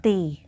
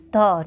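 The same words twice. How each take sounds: First: "the" said as "thee", with a long ee; article "the" as "thee". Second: "the" said as "thuh", with a short schwa; short article "the". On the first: Teacher contrasting the wrong form for students, a long "thee". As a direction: say "the" as a full "thee". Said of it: "not the". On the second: Teacher explaining "the Narmada" to students, a short "thuh". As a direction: keep "the" weak, "thuh". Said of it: "we will pronounce it the". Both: Shown as a demonstration.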